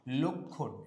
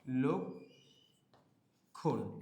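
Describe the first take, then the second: First: Said in the usual way. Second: লক্ষণ split as "lok", long pause, "khon"; syllable by syllable. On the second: Shown as a demonstration. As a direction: sound out লক্ষণ very slowly in two halves. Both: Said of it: "এটার উচ্চারণ আমরা কি করি".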